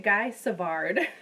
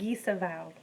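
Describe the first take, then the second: First: The name is said with an American Midwestern accent. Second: The name is said with a French accent. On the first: "if you're Minnesotan" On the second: "the French pronunciation"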